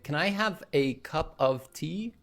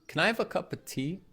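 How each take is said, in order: First: 'Cup of' is said fully, 'of' clear. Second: 'Cup of' is reduced to 'cuppa'. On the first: "Instead of saying" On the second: "a cup of becomes a cuppa"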